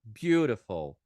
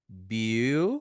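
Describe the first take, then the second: First: Loud joined-up "Beautiful", BYOO-ruh-fol; falling, projected "Beautiful"; whole-word model pronunciation. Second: Loud "Beautiful" split into BYOO, ruh, fol; broken-up "Beautiful", flapped t; syllable-by-syllable demo. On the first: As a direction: run "Beautiful" together with a flapped t. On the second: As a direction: pause between syllables of "Beautiful". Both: Shown as a demonstration. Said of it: "vou falar em voz alta aqui esses adjetivos".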